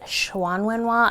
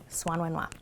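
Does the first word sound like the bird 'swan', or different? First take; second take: different; like swan. First: The first word does not sound like 'swan'. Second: The first word sounds like the bird 'swan'. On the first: Some other people say it this way. "Some people say" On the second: This is the speaker's own way of saying it. "I say swan like the bird"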